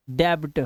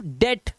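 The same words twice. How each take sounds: First: डेब्ट with a half b before the t, lower; mistaken b sounded. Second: डेट with no b sound; silent b. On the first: Retold or imitated. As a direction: imitate a learner's slip, sounding the b in डेब्ट. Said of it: "बच्चे क्या गलती करते हैं". (डेब्ट, गलती से आधा 'ब' बोलते हुए) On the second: Shown as a demonstration. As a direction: say डेट, leaving the b out. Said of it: "इसे पढ़ते हैं सिर्फ". (डेट, बिना 'ब' की आवाज़ के)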